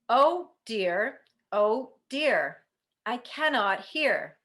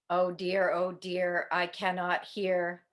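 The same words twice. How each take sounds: First: It is said at volume level three. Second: It is said at volume level one.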